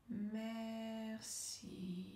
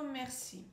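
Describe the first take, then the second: First: MERCI very slow and soft, both syllables held level; stretched syllables. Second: Said in the usual way. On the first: Shown as a demonstration. Coach leads word-smoothing exercise after a breath, drawn-out MERCI. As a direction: draw out MER, then a long soft CI. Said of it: "allonger le mot, allonger la syllabe". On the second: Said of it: "On va dire le mot merci".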